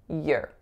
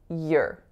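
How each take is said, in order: First: The word is said with a weak, reduced vowel. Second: The word is said with a weak, reduced vowel.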